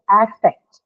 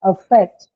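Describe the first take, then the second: First: "affect" opening on the vowel of cat, AF-fect; noun pronunciation. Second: "affect" with a weak schwa first, uh-FECT; verb pronunciation. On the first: Teacher showing students the noun, cat-vowel "affect". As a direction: slowly say "affect" as AF-fect, with a full first vowel. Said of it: "it has a slightly different pronunciation". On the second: Teacher showing how not to say the noun, schwa-first "affect". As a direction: say "affect" as uh-FECT, stress on the second syllable. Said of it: "So you don't say". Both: Shown as a demonstration.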